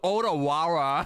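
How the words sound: The name has an American English pronunciation. This is how most people in the country say it. The speaker calls it wrong. "every U S citizen says like"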